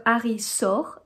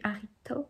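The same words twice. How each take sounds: First: "Harry sort" slowly, with th softened to s; careful "Harry sort", lisped s in place of t; corrected pronunciation. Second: "Harry Thor" with a hard t, dropped in quietly; soft aside, "Harry Thor" with plain t; old mispronunciation. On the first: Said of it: "et plus Harry Thor". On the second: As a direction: murmur "Harry Thor" with a French t. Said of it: "et plus". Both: Shown as a demonstration.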